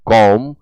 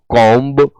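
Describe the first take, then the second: First: The final b sound is silent. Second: The final b sound is pronounced. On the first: The speaker calls it right. "बी को pronounce नहीं करना होता है" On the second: The speaker calls it wrong. "कॉम्ब जैसे शब्द न पढ़ें"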